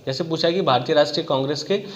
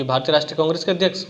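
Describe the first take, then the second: First: Said in the usual way. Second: Rushed and fast, skimming the words; fast careless skim-reading; hurried skim. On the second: Shown as a demonstration. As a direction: rattle it off like a careless student glancing at the question. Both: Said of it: "हमने तुरंत देखा".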